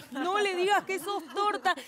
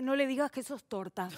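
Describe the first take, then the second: First: "No le digas que sos torta" pushed higher and pressing; urgent repeat. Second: Said in the usual way. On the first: Retold or imitated. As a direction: hiss the warning again, more urgent. Mom's message repeated, urgent.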